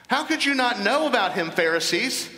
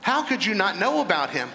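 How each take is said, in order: First: "know" pushed much higher, incredulous; preacher rebuking the Pharisees, pitched up in disbelief; raised in disbelief. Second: Said in the usual way. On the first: Shown as a demonstration. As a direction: repeat it higher, stressing "know".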